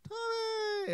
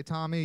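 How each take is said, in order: First: Tommy sung out high and falling; high called name. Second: Said in the usual way. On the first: Shown as a demonstration. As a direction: call "Tommy" high like kids answering. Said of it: "you're gonna say". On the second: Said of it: "So when I say".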